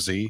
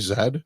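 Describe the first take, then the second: First: The letter is said the non-Canadian way. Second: The letter is said the Canadian way.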